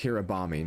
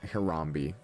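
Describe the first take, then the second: First: The name is said with four syllables. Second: The name is said with three syllables. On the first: The speaker calls it right. "that's how I'm going to pronounce it" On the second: The speaker calls it wrong. "I was pronouncing it wrong the entire time"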